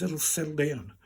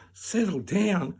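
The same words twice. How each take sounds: First: Doctor's even, soothing line; reassurance. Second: Slow, higher echo in disbelief; incredulous echo. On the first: Doctor to the upset patient, reassuring. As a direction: settle the patient with an easy falling tone. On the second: Patient throwing doctor's words back, incredulous. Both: Retold or imitated.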